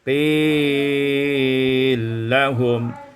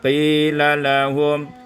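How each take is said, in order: First: The first l merges into a doubled l. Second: The first l keeps its vowel before lahum.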